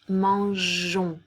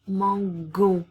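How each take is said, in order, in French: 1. Le g est doux, comme le son 'zh'. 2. Le g est dur, comme dans 'go'. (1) "pour qu'on prononce mangeons" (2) "pour éviter que le son fasse mango"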